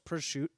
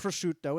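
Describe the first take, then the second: First: The word ends without its final syllable. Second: The word ends with its full final syllable. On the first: "You just drop the last syllable" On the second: "Instead of"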